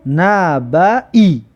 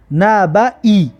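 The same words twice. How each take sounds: First: نبعی said again, even slower and drawn out; slow repeat. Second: نبعی stretched very slowly, na-ba-i; slow model reading. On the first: Teacher repeating the word, very slowly. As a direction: linger on every sound of نبعی. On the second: Teacher demonstrating the word to pupils, very slow. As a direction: draw out نبعی. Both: Shown as a demonstration. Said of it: "ببینید".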